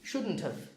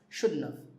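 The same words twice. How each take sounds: First: The T in shouldn't is pronounced. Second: The T in shouldn't is dropped.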